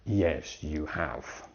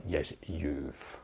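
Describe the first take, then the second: First: "you have" as two words, "have" in full; uncontracted you have. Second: "you've" as one syllable ending in v; contracted you've. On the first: Teacher giving the correct short answer, full "you have". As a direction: end on a full, separate "have". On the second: Teacher showing the wrong short answer, contracted "you've". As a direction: cut "you have" down to a final "you've". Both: Shown as a demonstration.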